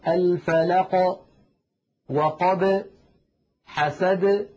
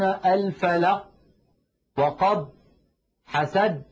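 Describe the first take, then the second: First: The final consonants are released with a bounce. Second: The final consonants stop abruptly without release. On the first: The speaker calls it right. "هكذا مثلا في سورة الفلق" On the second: The speaker calls it wrong. "لا يقولون الفلق وقب حسد، لا تفعل العرب ذلك أبدا"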